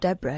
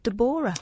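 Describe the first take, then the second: First: The name is said in a plain, ordinary way. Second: The name is said in a posh way.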